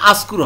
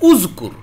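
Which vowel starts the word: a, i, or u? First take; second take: a; u. First: The word begins with an a vowel. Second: The word begins with an u vowel. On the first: The speaker calls it wrong. "আসকুর হবে না" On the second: The speaker calls it right. "এখানে আপনি পেশ দিবেন"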